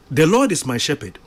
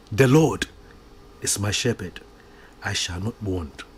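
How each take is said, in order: First: Rattled off quickly without thought; said too fast. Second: "The Lord" then a pause, "is my shepherd", a pause, "I shall not want" falling softer; slow with pauses. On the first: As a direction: rush through it like a memorized line. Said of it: "maybe we say it too fast". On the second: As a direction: let each phrase sink in, pausing between. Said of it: "with understanding". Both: Shown as a demonstration.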